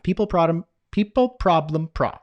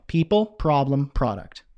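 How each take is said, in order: First: "People, problem" tripped over and restarted, breaking off at "pro-"; fumbled tongue-twister, cut short on "pro-"; tongue-tied stumble. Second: Deliberate second attempt, falling on the last word; careful retry. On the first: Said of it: "I can't even say it myself". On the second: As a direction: say it slowly and cleanly, word by word. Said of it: "try it again". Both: Real, not acted.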